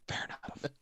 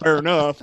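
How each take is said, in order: First: It is said in a soft whisper. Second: It is said loudly and forcefully. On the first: It shows genuine agreement. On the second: It is a routine dismissive reply.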